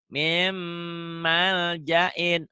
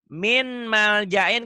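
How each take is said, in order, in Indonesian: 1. Bunyi n melebur ke m yang ditahan dan berdengung. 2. Bunyi n dibaca jelas sebelum m. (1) "Mim ditahan ya" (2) "kalau baca min maljain berarti jadi idhar ... Itu salah"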